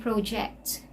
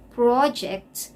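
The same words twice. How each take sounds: First: "project" stressed on the second syllable, pro-JECT; "project" as the verb. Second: "project" stressed on the first syllable, PRAW-ject; "project" as the noun, open o. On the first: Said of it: "When you say you project". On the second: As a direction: hit PRO in "project". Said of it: "But when you say project". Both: Shown as a demonstration.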